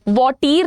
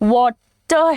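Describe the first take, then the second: First: The second syllable has a long ee vowel. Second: The second syllable has a light a vowel. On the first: The speaker calls it wrong. "ये वॉटीर तो नहीं है" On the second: The speaker calls it right. "वॉटर है"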